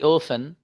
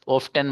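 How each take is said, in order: First: The t sound is left out in the middle. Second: The t sound is pronounced in the middle. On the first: The speaker calls it right. "ये टी silent है भाई साहब" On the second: The speaker calls it wrong. "ऑफ्टन मत पढ़ना"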